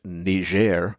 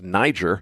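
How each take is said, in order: First: The name is pronounced in a French way. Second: The name is pronounced in an English way. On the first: The speaker calls it right. "that's a French-speaking place, so it's pronounced" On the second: The speaker calls it wrong. "looks to English speakers like it ought to be pronounced"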